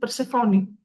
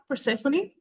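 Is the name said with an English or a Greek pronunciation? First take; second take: Greek; English. First: The name has a Greek pronunciation. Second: The name has an English pronunciation. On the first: "we in Greek is Persephone" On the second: "here we have Persephone"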